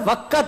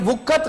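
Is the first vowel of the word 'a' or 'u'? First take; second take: a; u. First: The first vowel is an 'a' sound. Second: The first vowel is a 'u' sound. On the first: The speaker calls it right. "वाव के ऊपर जबर है" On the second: The speaker calls it wrong. "ये वुक्कत गलत है"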